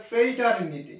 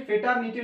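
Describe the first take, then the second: First: ফ্রেটারনিটি slowly as "frei-tar-ni-ti"; corrected pronunciation. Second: ফ্রেটারনিটি said as "fe-tar-ni-ti", no r, short e; mistaken pronunciation. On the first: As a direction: stretch the first syllable of ফ্রেটারনিটি into a "frei" glide. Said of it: "এটা ফ্রেটারনিটি". (ফ্রেটারনিটি ধীরে, "ফ্রেইটারনিটি" উচ্চারণে) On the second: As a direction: drop the r and the glide in ফ্রেটারনিটি: "fetarniti". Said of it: "actually ফ্রেটারনিটি না". (ফ্রেটারনিটি ভুল উচ্চারণে, "ফেটারনিটি") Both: Shown as a demonstration.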